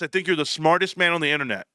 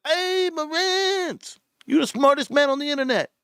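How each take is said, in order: First: Said in the usual way. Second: Ape Father. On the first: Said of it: "and Ape Father goes". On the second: Retold or imitated. Imitating a YouTuber praising Marantz, high exaggerated impression. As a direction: stretch the hail out high, then gush. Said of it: "I seen the Ape Father".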